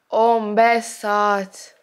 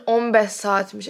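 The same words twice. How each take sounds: First: "On beş saat" very slow, each word stretched; drawn-out emphasis on "On beş saat". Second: Said in the usual way. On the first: Real, not acted. Vlogger stunned by own screen time, "On beş saat" slowly emphasised. Repeats shocking figure for effect.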